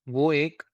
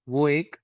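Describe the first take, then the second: Both takes have the same delivery.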